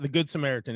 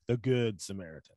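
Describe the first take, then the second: First: The stress is on Samaritan. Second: The stress is on Good.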